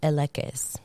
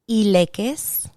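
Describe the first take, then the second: First: It is pronounced the English way. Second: It is pronounced the Spanish way. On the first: "So here's English"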